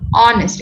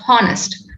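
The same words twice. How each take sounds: First: The h at the start is silent. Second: An h sound is pronounced at the start. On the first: The speaker calls it right. "look at the word honest" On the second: The speaker calls it wrong. "It is not honest"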